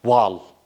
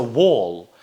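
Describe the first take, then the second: First: "wall" with an unrounded A-like vowel; teacher voicing the "wall" to avoid; wrong vowel demo. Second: "wall" with a long rounded "aw"; British O sound. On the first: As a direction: show "wall" without the O sound. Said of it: "why don't you say". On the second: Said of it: "it's gonna be O sound". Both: Shown as a demonstration.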